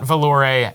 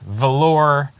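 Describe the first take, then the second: First: The name is said with an altered ending, Valore. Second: The name is said like the word valor. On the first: The speaker calls it wrong. "not Valore, as may have been mispronounced" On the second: The speaker calls it right. "Valor Accords"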